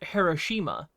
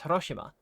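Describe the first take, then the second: First: The name is said with an American accent. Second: The name is said with a Japanese pronunciation. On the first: The speaker calls it wrong. "some Americans might pronounce a city in Japan as Hiroshima" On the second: The speaker calls it right. "the native pronunciation is Hiroshima"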